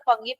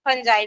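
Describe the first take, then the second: First: It has a hard g and ends in 'ee'. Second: It has a j sound and ends in 'eye'. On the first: The speaker calls it wrong. "कई लोग फंगी पढ़ते हैं क्योंकि उसका spelling F यू N G I" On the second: The speaker calls it right. "फंजाई ही मेरे ख्याल से real उसका प्रोनाउंस है"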